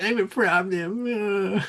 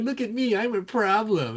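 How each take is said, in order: First: Higher, very slow smug boast in a put-on voice; mocking boast, drawn out. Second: Mocking Usman's boast. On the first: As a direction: stretch out the brag like a caricature. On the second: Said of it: "he's like".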